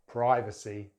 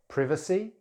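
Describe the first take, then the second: First: It is said with an American accent. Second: It is said with a British accent. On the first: "then American English" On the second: "in British English"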